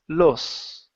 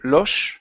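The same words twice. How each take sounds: First: The s is made with the tongue pointing down. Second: The s is made with the tongue raised. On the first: "Spanish from Central America, it's los, okay, and my tongue points down" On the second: "in Spanish from Spain, your tongue rides up a little bit"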